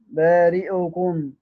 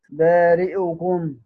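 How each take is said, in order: First: The hamza carries a brief, shortened i vowel. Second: The hamza carries a brief, shortened i vowel.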